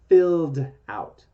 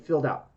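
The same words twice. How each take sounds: First: The two words are said slowly and separately. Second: The two words are said quickly, run together.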